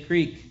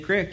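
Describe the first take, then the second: First: The vowel is long, like 'ee'. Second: The vowel is short, like 'ih'. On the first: "do you say creek?" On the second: "you got a PA guy or gal on your hands there"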